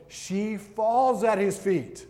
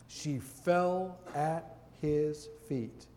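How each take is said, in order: First: "falls" pushed louder and higher, drawn out with a falling end; emphatic, slow stress on falls. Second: "fell" drawn out slow and soft, falling at the end; quiet, slow reading with "fell" stretched and falling; slow, hushed reading. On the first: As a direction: lean hard on "falls", slow and raised. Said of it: "But you see the difference?". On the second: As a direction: read "she fell at his feet" slowly and quietly. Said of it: "can you see the difference in the posture". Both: Shown as a demonstration.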